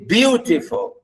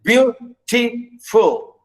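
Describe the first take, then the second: First: "beautiful" as one word, BEAU stressed, then falling; BEAU-tiful, weight at the front; stress on first syllable. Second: "beautiful" slowly split into beau, ti, ful; beau... ti... ful, for the class; syllable by syllable. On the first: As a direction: example word "beautiful", first beat strong. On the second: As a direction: separate raised beats on "beautiful", last one falling. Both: Shown as a demonstration. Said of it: "stress the first".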